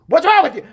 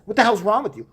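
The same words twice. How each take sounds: First: High, loud repeat of the scolding; retold angry outburst. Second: Mildly raised scolding question; retold scolding. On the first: Mom going off on the bully, escalating to a shout. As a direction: escalate into a mother's yell. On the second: Mom going off on the bully, contained scolding. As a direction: imitate a mom telling someone off. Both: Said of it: "going off on her".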